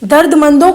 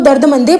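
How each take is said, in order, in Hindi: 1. शब्द नासिक 'on' ध्वनि से खत्म होता है। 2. शब्द 'ay' ध्वनि से खत्म होता है।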